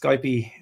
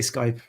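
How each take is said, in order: First: It is said the French way, added vowel. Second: It is said the Irish way, one syllable.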